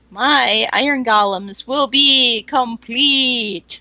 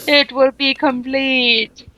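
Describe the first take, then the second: First: Slow grand proclamation; dramatic announcement. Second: Slow gloating villain line; evil villain. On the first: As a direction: announce it like a proud creator. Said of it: "Just need a mwahahaha". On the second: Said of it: "That's actually how it sounded in my head". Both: Acted.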